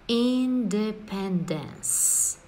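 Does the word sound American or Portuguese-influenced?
American. It is said with an American English pronunciation. The speaker calls it right. "A pronúncia é independence"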